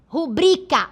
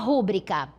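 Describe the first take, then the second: First: The stress is on the second syllable. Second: The stress is on the first syllable. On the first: The speaker calls it right. "a palavra correta... é rubrica a sílaba tônica ebri" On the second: The speaker calls it wrong. "eu desloquei de bri para ru"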